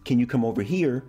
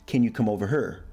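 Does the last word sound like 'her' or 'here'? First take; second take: here; her. First: The last word is said as standard 'here'. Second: The last word is said like 'her'. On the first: "in the sentence" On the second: "would be"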